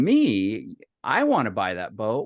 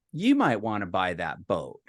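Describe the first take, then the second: First: Mock disbelief, ending on a rise; incredulous echo. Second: Lower, falling end on a sales hint; casual suggestion. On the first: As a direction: throw it back as a rising question. Echoes the suggestion in disbelief. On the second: Retold or imitated. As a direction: float the idea as a brother's pitch. Brother's sly suggestion in retold call.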